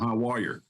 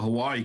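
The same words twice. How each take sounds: First: It is said with an added y and r sound. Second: It is said plainly, with no r sound.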